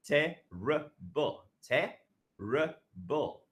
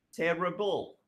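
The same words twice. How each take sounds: First: "Terrible" drawn out slowly, syllable by syllable; slow syllable demo. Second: Said in the usual way. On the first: Shown as a demonstration. Teacher slowly repeating "Terrible" for students to count syllables. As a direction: stretch "Terrible" so each syllable is heard.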